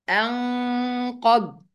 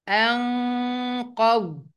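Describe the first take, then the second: Both takes have the same delivery.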